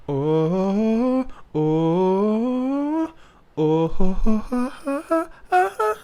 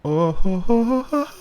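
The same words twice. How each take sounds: First: "oh" sung high with a clean onset and no h. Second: "oh" sung high with an added breathy h before it; aspirated oh. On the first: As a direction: start each "oh" straight on the vowel. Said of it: "So it's not". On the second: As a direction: push a puff of air into each "oh". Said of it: "that added H for emphasis". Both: Shown as a demonstration.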